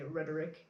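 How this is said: It is said with an American accent. "or Americans would say rhetoric"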